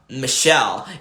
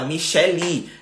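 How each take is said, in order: First: The name is said with English pronunciation. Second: The name is said with Portuguese pronunciation. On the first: "In English, they say" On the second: "em português a gente fala Michele"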